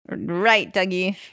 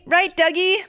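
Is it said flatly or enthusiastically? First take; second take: flatly; enthusiastically. First: It is said flatly, without much enthusiasm. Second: It is said with more enthusiasm.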